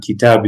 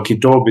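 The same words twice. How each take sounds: First: Light "kitab" with an open "a"; light pronunciation. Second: Heavy "kitab" with a rounded "aw"; full-mouth pronunciation. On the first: Contrasting the other dialect for students, light "kitab". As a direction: keep "kitab" unrounded, vowel forward. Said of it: "more of a light sounding". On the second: Contrasting his dialect for students, full-mouth "kitab". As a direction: round "kitab" heavily into "kitawb". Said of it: "ours is more of a full mouth". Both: Shown as a demonstration.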